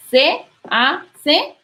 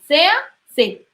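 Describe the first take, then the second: First: "se hace" with each vowel apart, se and ha kept distinct; "se hace" split into its syllables; separate syllables. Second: "se hace" run together as "sea-ce", one syllable across the words; "se hace" slurred smoothly together, slowly; vowels joined. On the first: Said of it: "ya no sería se hace". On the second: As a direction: blend "se hace" into sinalefa. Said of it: "sino se hace". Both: Shown as a demonstration.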